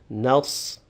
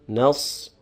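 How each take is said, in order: Both takes have the same delivery.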